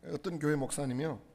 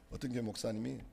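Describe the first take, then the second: First: Said in the usual way. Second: Laughing restart. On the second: Real, not acted.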